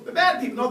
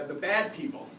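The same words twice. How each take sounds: First: "bad" punched, louder and higher on The bad people; mock emphatic. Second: Said in the usual way. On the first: Mocking a drug client's label of the bad people, punched. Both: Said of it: "no, no, no, they're people".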